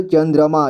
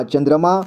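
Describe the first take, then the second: First: चंद्रमा split as "chan-dra-maa"; चंद्रमा read piece by piece; sounded out. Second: Said in the usual way. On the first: Shown as a demonstration. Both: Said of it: "इसे संजय पढ़ेंगे".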